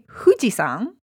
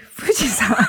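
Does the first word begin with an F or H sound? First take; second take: H; F. First: The first syllable starts with a breathy H sound. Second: The first syllable starts with a soft F sound. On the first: The speaker calls it wrong. "You don't say" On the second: The speaker calls it right. "You say"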